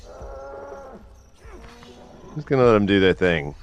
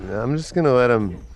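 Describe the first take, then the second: First: Higher, slow, stretched-out put-on voice; drawn-out singsong. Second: Said in the usual way. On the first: Gamer backing off from a strange scene, drawn-out silly singsong. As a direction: let it hang lazily in a silly voice. Repeats line drawn out, odd voice.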